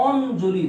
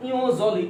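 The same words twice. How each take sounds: First: "অঞ্জলি" drawn out slowly as on-joli; actual pronunciation. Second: "ইওজলি" said io-joli, no n sound; letter-by-letter reading. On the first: Teacher gives students the real sound, "অঞ্জলি" as slow on-joli. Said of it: "উচ্চারণ হয়". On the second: Teacher asks what it should be, "ইওজলি" as io-joli. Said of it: "উচ্চারণ কি হওয়া উচিত". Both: Shown as a demonstration.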